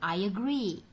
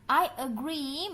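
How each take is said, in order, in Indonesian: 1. Bunyi y menyambungkan kedua kata. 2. Kedua kata disambung tanpa bunyi y tambahan.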